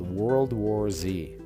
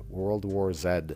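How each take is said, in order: First: The Z is said the American way. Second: The Z is said the Canadian way.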